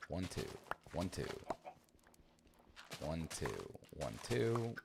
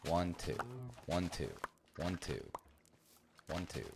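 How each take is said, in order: Both takes have the same delivery.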